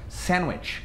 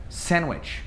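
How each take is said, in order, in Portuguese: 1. O som do d não é pronunciado. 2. O som do d não é pronunciado.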